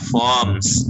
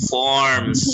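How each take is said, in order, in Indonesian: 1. Bunyi R-nya dihilangkan. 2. Bunyi R-nya jelas diucapkan. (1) "nggak usah baca R-nya" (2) "kalau American kayak ini"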